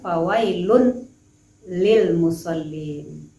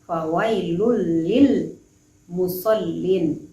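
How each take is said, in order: First: A clear n is sounded before the l. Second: The n merges straight into the following l. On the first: The speaker calls it wrong. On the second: The speaker calls it right. "karena dia adalah idgham bila gunnah"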